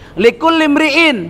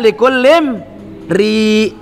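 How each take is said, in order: First: A glottal stop comes before the final syllable. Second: It ends on a long vowel without glottal stop. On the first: This is the phrase's original form. "Asalnya likul limri'in" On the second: This is how it is read when stopping. "dibaca likul limri ... Hamzahnya hilang"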